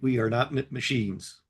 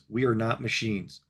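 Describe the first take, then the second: First: It is said in a stuttering robotic voice. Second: It is said in a natural speaking voice.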